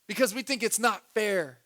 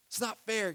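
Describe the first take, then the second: First: Said in the usual way. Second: "It's not fair." repeated much softer; a soft, mocking echo of "It's not fair."; quiet echo. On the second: Shown as a demonstration. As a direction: let "It's not fair." fall away softly.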